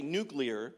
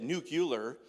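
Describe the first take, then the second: First: Said in the usual way. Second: Nuclear said as NOO-kyoo-ler, the way George Bush did; light imitation saying nuclear as NOO-kyoo-ler; George Bush's nucular. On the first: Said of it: "I gotta say nuclear". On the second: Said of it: "George Bush that said nuclear".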